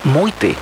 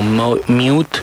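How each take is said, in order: First: The name is said with German pronunciation. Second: The name is said without German pronunciation. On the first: The speaker calls it right. "como son alemanes, la pronunciación correcta es Meute" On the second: The speaker calls it wrong. "la estábamos presentando como Meute, como Mute"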